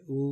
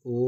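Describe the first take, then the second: First: او pronounced "oo" as in food; u vowel demonstration. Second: او pronounced "oh", held evenly; o vowel demonstration. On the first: Teacher naming the next underneath vowel, clear "oo" demonstration. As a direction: say او as a close long "oo". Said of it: "پھر یہ ہے او". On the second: Teacher naming an underneath vowel to learners, clear "o" demonstration. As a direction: say او as a rounded long "o". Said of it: "اور یہ ہے او". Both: Shown as a demonstration.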